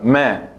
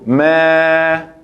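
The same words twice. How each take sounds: First: The vowel is cut very short. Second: The vowel is held long. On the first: It is the short vowel fatha. The speaker calls it right. "Tiene que estar corta" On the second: It becomes a different category of vowel. The speaker calls it wrong. "si pronuncio me, es otra categoría"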